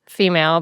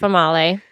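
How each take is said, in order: First: It sounds like the ordinary English word female. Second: It sounds like famale, with a different first vowel. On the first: This is how the name was spelled. "which was female, but that's not how we pronounced it" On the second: This is how the name was actually pronounced. "It was Famale"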